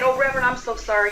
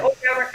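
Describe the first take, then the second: First: Quick, higher, gushing sorry; mock apology. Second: Said in the usual way. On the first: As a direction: rush the apology, a bit higher. Retold apology to reverend.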